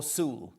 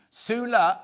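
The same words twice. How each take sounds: First: "Sule" drawn out as a single "sool"; Sule pronunciation. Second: "Sula" drawn out slowly as "soo-la"; Sula pronunciation. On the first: Host asking how the surname goes, "Sule" as "sool". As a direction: say "Sule" slowly with no final vowel. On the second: Host asking how the surname goes, "Sula" as "soo-la". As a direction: stretch "Sula" over two clear syllables. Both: Shown as a demonstration. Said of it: "do I say Sule or Sula".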